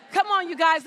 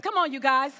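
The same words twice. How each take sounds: First: Urging shout. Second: Said in the usual way. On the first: Real, not acted. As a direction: call it out loud to the crowd. Urging audience, repeated call.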